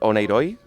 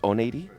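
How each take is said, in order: First: The name is said with a Spanish pronunciation. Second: The name is said with a Greek pronunciation. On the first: This is how Spanish speakers say it. The speaker calls it wrong. "we in Spanish call it oneiroi" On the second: This is how Greek speakers say it. The speaker calls it right. "the correct pronunciation is oneiri"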